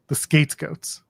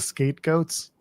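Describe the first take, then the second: First: The t sound in skate is crisp and clear. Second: The t sound in skate is weak and unclear. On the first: The speaker calls it right. "you gotta put the emphasis on the T" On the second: The speaker calls it wrong. "So I didn't enunciate skate"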